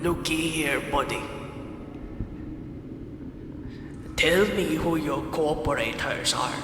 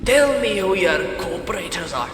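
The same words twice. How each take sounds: First: Scottish sliding into pirate; pirate accent. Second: Forceful, hammy British jailer; British accent. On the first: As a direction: growl it like a hammy pirate interrogator. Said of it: "It's turned into a pirate accent". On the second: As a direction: demand it in a put-on British voice. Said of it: "I'm gonna do a British voice". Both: Acted.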